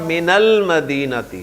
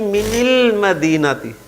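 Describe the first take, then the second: First: The linking vowel after min is a. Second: The linking vowel after min is i. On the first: The speaker calls it right. "जेर दे के नहीं बल्कि ज़बर दे के मिलाते हैं" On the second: The speaker calls it wrong. "आप इसे जेर दे के मिलाएं ... बड़ी अजीब सी"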